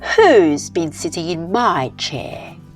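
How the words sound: It is said in a medium-pitched voice.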